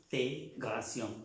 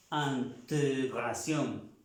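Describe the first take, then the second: First: Integración with the E sounding normal; with the accent. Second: Integración drawn out slowly, e unaccented; without the accent. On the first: Teacher shows right sound with accent. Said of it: "con el acento". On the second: Teacher shows wrong sound without accent. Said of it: "Sin acento diría ante, sonaría". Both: Shown as a demonstration.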